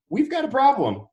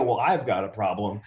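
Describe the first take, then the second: First: Much higher and louder, a jolt of alarm; panicked alarm. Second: I've said low and leaning, calmly correcting; stress on I've. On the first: Telling his business partner, a high panicked alarm. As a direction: blurt it out in sudden panic. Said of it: "I was like". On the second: Correcting himself to his partner, stress on I've. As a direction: lean on I've to correct yourself. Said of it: "I go". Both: Retold or imitated.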